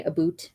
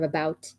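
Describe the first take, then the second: First: A boot, with an OO vowel; Canadian pronunciation. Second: Said in the usual way. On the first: Shown as a demonstration. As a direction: say about as a boot. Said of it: "a lot of Canadians say". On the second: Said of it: "instead of".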